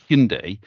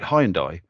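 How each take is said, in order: First: The name is said the new official way. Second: The name is said the old British way. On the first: This is the pronunciation the company promotes. The speaker calls it right. "this is how you say it" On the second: This is how people in the UK used to say it. The speaker calls it wrong. "in the U K, everyone called it"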